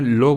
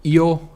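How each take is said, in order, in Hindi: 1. नाम की शुरुआत 'l' ध्वनि से होती है। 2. नाम की शुरुआत 'ee' स्वर से होती है।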